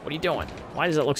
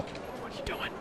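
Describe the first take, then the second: First: Voiced disbelief. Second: A hushed, baffled question to the game; whispered disbelief. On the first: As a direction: ask the game outright, pitch up. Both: Real, not acted. Scolding game twice, whisper then voice.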